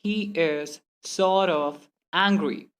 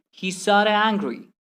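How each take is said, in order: First: Very slow, a gap between words. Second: "sorta" run straight into the next word; merged letters. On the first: Teacher showing the slow way to avoid, word-by-word. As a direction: pull "sort" and "of" apart. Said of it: "Instead of saying". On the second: Teacher giving learners the faster version, merged words. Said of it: "simply say". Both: Shown as a demonstration.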